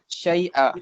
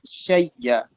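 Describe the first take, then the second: First: The middle sound is a glottal stop. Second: The glottal stop becomes a doubled y.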